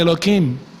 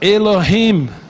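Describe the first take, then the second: First: The middle consonant is a hard K sound. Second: The middle consonant is a throaty, guttural sound. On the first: "Da Europa, ele vai falar Elohim" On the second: "O judeu lá do Oriente Médio, ele fala Elohim"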